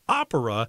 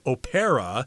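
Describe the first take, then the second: First: The stress falls on the first syllable. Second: The stress falls on a later syllable. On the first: The speaker calls it right. "The accent is on the first syllable here" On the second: The speaker calls it wrong. "I've heard a lot of people say opera"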